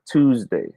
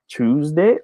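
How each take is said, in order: First: "Tuesday" with a plain t at the start; tooz-day. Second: "Tuesday" with a ch at the start; choose-day. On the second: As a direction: say "Tuesday" slowly as CHOOZ-day. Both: Shown as a demonstration. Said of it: "Is it Tuesday or Tuesday?".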